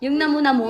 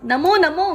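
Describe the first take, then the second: First: Said in the usual way. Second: High, mock baby talk; mother lightly imitating her child's old word; toddler voice. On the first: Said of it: "ako na nagturo nun".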